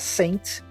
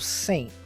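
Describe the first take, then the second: First: The final T sound is clearly pronounced. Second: The final T sound is dropped. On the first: The speaker calls it wrong. "ao invés de pronunciar Saint" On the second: The speaker calls it right. "terá a pronúncia da letra T sendo omitida"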